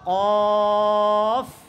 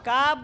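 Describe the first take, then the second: First: The first consonant is thick, made deep back. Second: The first consonant is thin, made further forward. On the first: The speaker calls it right. "এটা মোটা ... আর এটা হচ্ছে মোটা উচ্চারণ" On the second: The speaker calls it wrong. "কাপ বলবে না ... কাপ বললে পাতলা হয়ে যাবে"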